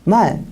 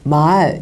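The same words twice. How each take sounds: First: The vowel is cut short. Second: The vowel is held long. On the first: It means the animal horse. "말 이렇게 짧게 얘기해요" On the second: It means spoken words. "말 이렇게 길게 말하고요"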